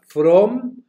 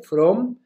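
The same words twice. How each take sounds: First: "from" said high and loud; teacher highlighting the word "from"; stress on from. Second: Said in the usual way. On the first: Shown as a demonstration. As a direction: punch "from" up high for students. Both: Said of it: "escriban dos palabras".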